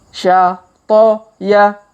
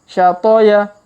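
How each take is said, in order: First: The syllables are read slowly with gaps. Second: The syllables are read quickly together. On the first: "kita baca pelan-pelan" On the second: "Kalau dipercepat"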